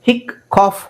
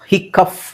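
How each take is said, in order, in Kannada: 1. ಈ ಪದ cough ಶಬ್ದದಲ್ಲಿ ಕೊನೆಗೊಳ್ಳುತ್ತದೆ. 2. ಈ ಪದ cuff ಶಬ್ದದಲ್ಲಿ ಕೊನೆಗೊಳ್ಳುತ್ತದೆ. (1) "ಹಿಕ್ ಕಾಫ್ ಆಗುತ್ತಾ? ಇಲ್ಲ" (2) "ಹಿಕ್ಕಫ್ ಆಗುತ್ತಾ? ಇಲ್ಲ"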